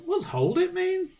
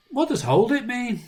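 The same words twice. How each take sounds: First: Put-on high, small puzzled kid voice; innocent child. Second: Put-on high puzzled little-boy question; innocent child. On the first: Dad retelling his son's innocent question, high kid voice. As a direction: ask it wide-eyed like a toddler. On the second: Dad voicing his son's question, high. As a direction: ask like a clueless small child. First take of same quote.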